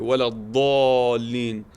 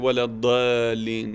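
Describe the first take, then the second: First: The letter is heavy and deep. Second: The letter is light and soft. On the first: The speaker calls it right. "It's a strong letter ... very loud, very deep" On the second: The speaker calls it wrong. "We don't say"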